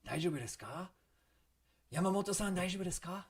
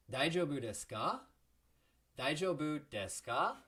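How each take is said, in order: First: High, urgent worried check-in; demonstrated worry, louder and higher as it goes; a little stressed. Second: Louder "Daijoubu desu ka?" with "ka" springing upward; teacher's clear demo rise on "ka"; springboard inflection. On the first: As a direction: act alarmed concern, pitch climbing. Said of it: "sound a little bit stressed". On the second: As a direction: swoop up high at the end of "Daijoubu desu ka?". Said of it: "Remember the springboard there?". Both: Shown as a demonstration.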